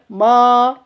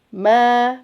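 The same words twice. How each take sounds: First: The vowel is opened very wide. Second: The vowel is opened only moderately. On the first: The speaker calls it wrong. "jangan sampai terlalu terbuka e, bibir kita. Nggak boleh ma, nggak boleh" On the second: The speaker calls it right.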